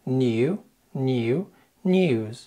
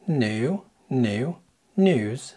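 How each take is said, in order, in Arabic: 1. لكنة بريطانية، صوت y خفيف قبل حرف العلة. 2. لكنة أمريكية، حرف علة عادي من غير صوت y. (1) "الإنجليزي هيقول" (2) "فالأمريكي هيقول"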